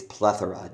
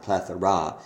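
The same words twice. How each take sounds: First: Plethora stressed only on PLETH; stress on first syllable. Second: Plethora with a stressed, full-vowel final RA; wrong double stress. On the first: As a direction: hit PLETH in "plethora", with "ora" light. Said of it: "it's plethora". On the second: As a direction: hit both PLETH and RA in "plethora". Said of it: "The word is not plethora". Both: Shown as a demonstration.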